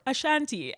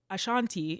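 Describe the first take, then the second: First: Ashanti with short "a", uh-SHAN-tee, lightly mimicking the video; alternative video pronunciation. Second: Ashanti with broad "ah", uh-SHAHN-tee, lightly imitating a robot voice; mimicked video pronunciation. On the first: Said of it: "video of how to say it". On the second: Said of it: "in the robot voice".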